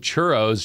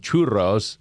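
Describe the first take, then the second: First: It is said with an English pronunciation. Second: It is said with a Spanish pronunciation.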